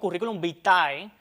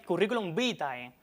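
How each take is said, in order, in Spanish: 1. El acento en vitae recae en la última sílaba. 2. El acento en vitae recae en la primera sílaba. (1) "y no curriculum vitae, como a veces algunas personas dicen impropiamente" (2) "poner la acentuación en la sílaba vi"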